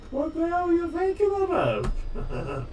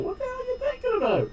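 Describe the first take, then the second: First: Slow mock exasperation. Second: Mock exasperation. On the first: Repeated slower, silly voice. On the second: Exasperated at tutorial makers.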